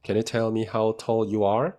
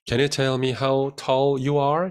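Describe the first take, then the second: First: Said in the usual way. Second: Very slow, clear model sentence; slow model read. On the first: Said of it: "잘 만들었네요". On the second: Shown as a demonstration. Teacher reads the sentence slowly to the class. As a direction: read it out slowly for students to repeat. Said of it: "확인해 볼 수 있겠죠".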